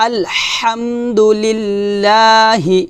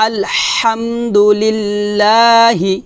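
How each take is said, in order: The two takes are said the same way.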